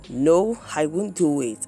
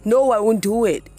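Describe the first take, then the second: First: It is said in a calm tone. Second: It is said in a violent tone.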